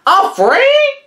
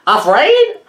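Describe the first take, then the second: First: Much higher, louder scoffing parrot; even higher mocking squawk. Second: High, loud disbelieving squawk; incredulous parrot. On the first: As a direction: push it up into a squawk. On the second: Acted. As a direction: echo it in shock like a parrot. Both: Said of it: "clucked Papagayo".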